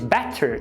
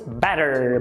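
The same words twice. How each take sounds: First: The middle consonant is a hard t. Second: The middle consonant is a quick tap. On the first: The speaker calls it wrong. "em vez de better" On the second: The speaker calls it right. "primeiro você vai colocar um tap"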